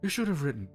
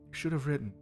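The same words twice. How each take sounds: First: It is said in a normal speaking voice. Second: It is said in a deeper put-on voice.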